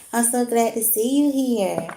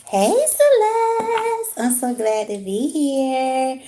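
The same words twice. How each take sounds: First: Said in the usual way. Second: High, slow, drawn-out sing-song welcome; sing-song greeting. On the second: Real, not acted. Streamer greeting Celeste in the chat with a high sing-song welcome. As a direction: stretch the words out high and bright like a singer.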